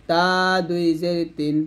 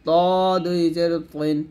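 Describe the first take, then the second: First: তা with a long open a; light Arabic ta. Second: তিন with a heavy, backed t, close to "twin"; heavy Arabic to. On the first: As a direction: say তা and তিন with a light dental t, as Arabic ت. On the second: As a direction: say ত as a long rounded "to", as Arabic ط. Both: Shown as a demonstration. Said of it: "এরকম".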